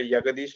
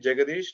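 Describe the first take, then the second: First: The name begins with a Y sound. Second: The name begins with a J sound. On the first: The speaker calls it wrong. "not a Yagadish like like German" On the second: The speaker calls it right. "you can call me Jagadish"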